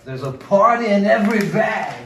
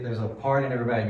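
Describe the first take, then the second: First: It is said excitedly with a thicker accent. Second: It is said plainly, without much excitement.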